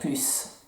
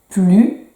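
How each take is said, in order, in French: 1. Le S final se prononce. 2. Le S final est muet. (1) "on pourrait dire plus" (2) "le S, on ne l'entend pas non plus"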